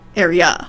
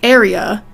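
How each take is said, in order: First: The stress is on the last syllable. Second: The stress is on the first syllable. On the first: "it's gonna be area. So it rhymes with fa" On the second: "we usually say area"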